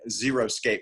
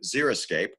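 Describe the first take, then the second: First: The first part sounds like the word 'zero'. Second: The first part sounds like 'zeri', not 'zero'. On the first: The speaker calls it wrong. "so many people mispronounce it as" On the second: The speaker calls it right. "they came up with the word xeriscape"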